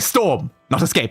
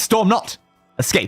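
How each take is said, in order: First: The pause comes right after 'storm'. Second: The pause comes right after 'not'. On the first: Storming is chosen instead of escaping. The speaker calls it wrong. "Because I would say storm, not escape" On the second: Do not storm; escape instead. The speaker calls it right. "but it's storm not, escape. It's a very different meaning"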